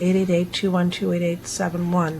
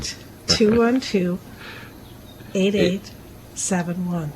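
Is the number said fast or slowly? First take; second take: fast; slowly. First: The number is said fast. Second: The number is said slowly.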